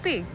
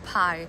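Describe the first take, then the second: First: It is pronounced the Greek way. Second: It is pronounced the English way. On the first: The speaker calls it right. "how we actually pronounce the Greek math symbols in Greek" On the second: The speaker calls it wrong. "this is not pi"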